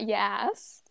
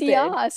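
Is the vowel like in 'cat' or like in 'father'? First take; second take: cat; father. First: The vowel is front, like 'cat'. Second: The vowel is open and back, like 'father'. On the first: The speaker calls it wrong. "It's not yass" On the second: The speaker calls it right. "It's yass"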